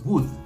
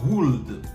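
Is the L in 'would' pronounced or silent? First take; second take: silent; pronounced. First: The L in would is silent. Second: The L in would is pronounced. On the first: The speaker calls it right. "on le prononce would" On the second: The speaker calls it wrong. "et non pas would"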